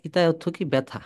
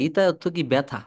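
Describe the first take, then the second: No difference in how they are said.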